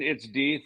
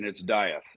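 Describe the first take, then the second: First: The name is said the German way. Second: The name is said the American way. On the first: "if you're German" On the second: "If you're American"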